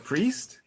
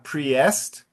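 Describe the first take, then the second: First: The vowel is one single long sound. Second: Both vowel letters are sounded separately. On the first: The speaker calls it right. "for priest" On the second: The speaker calls it wrong. "it's not priest"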